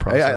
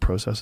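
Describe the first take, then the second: First: The word is said with an American-sounding vowel. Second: The word is said with a British-sounding vowel. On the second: "like I said, process ... like I'm from England"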